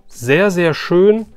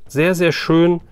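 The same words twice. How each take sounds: The two takes are said the same way.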